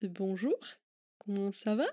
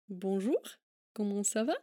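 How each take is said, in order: No difference in how they are said.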